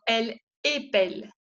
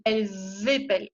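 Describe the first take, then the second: First: Elle épelle with no Z link between the words; elle épelle, vowels kept apart; no liaison. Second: Elles épellent with the S linked as a Z; liaison demo. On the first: Teacher contrasting the singular without liaison. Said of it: "No hago ninguna unión". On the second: Teacher showing the liaison to students. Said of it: "Hago la unión". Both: Shown as a demonstration.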